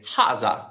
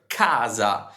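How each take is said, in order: First: The word begins with a breathy H sound. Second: The word begins with a hard K sound. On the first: This is the Florentine pronunciation. "Florentines omit the K and they make it a silent K, a H" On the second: This is the standard Italian pronunciation. "we pronounce the letter K"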